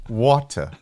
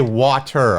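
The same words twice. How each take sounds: First: "Water" with a British dropped final R; imitated British pronunciation. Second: "water" slowly, with a sounded final R; every letter pronounced. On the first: American trying co-host's British way, "Water" without the R. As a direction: say "Water" as "waw-tuh", mimicking British English. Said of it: "can you say water correctly". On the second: Shown as a demonstration. American showing British co-host his way, "water" with full R. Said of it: "I say all the letters in the".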